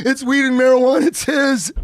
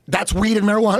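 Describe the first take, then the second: First: High, loud, hammed-up tearful snitching; imitating a wailing, panicked teenager; mock crying. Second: Lightly voiced accusing cop; mild imitation of a policeman; retold cop. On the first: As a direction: blurt out the blame as if bawling. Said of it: "I'm crying, throwing my friend under the bus". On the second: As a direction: state it as the cop, slightly raised pitch. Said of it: "But he goes".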